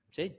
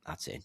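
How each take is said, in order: First: Said in the usual way. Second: Barely above a murmur, deadpan calm; calm and quiet. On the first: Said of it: "And I was like". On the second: Retold or imitated. To the lads after the hole in one, soft deadpan calm. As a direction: say it softly as if it's nothing special. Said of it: "you're so calm about it".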